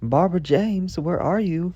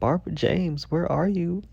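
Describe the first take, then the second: First: It is called out in a steady voice. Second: It is called out in a crying voice.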